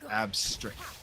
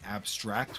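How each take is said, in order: First: The last syllable sounds like 'strict'. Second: The last syllable sounds like 'tract'. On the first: The speaker calls it right. "Like a strict parent" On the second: The speaker calls it wrong. "I think I've been saying abstract"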